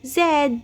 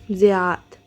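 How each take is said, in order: First: The name is said as one syllable, Zaid. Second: The name is said with three syllables, Zi-ya-d. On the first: This is how one character says the name. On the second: This is the name as it is usually said.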